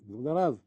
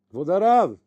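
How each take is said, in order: First: Said in the usual way. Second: Louder call, pitched higher, to a deaf rabbi. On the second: Retold or imitated. Appel plus fort au rav sourd. (appeler plus fort le rav sourd)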